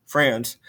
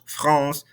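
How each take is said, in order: First: FRANCE the English way, "franss" with the A of "cat"; English pronunciation. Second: FRANCE the French way, "frahnss" with a nasal vowel; French pronunciation. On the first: Teacher sorting out her mixed-up languages, English pronunciation. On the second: Teacher sorting out her mixed-up languages, French pronunciation. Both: Shown as a demonstration. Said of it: "between the English and the French".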